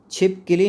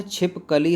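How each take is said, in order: First: "छिपकली" with short i after k, chhipkilī; higher-pitched "छिपकली" mispronounced with ki for ka; wrong pronunciation. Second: "छिपकली" with a after k, chhipkalī; "छिपकली" drawn out, clear ka in the middle; correct pronunciation. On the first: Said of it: "नहीं होता है". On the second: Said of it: "होता है". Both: Shown as a demonstration.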